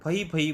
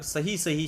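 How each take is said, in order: First: The word begins with an f sound. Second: The word begins with an s sound. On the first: The speaker calls it wrong. "स को बदल के उसने फ कर दिया" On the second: The speaker calls it right. "सही सही शब्द है"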